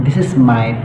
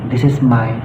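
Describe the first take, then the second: No difference in how they are said.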